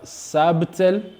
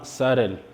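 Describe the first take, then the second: First: The B sound is pronounced. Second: The B sound is silent. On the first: The speaker calls it wrong. "ne prononcez pas sabtel" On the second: The speaker calls it right. "mais dites simplement sarel"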